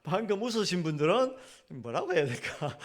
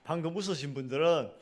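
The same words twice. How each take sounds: First: Half-laughing; amused, chuckling while speaking. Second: Said in the usual way. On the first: Real, not acted. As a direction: repeat the line through a light laugh.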